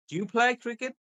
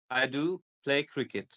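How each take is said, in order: First: "Do you play cricket" pitched high, up to "cricket"; rising question. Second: "I do play cricket" stepping down to "cricket"; falling statement. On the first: Teacher giving example questions, voice going up on "cricket". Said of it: "So your voice is going up". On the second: Teacher giving example statements, voice going down on "cricket". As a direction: close "cricket" on a downward tune. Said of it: "your voice is going down". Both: Shown as a demonstration.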